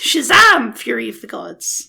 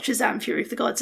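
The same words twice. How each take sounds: First: Only the first word is loudly exclaimed. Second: The whole title is said flatly, without exclaiming. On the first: The speaker calls it right. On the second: The speaker calls it wrong.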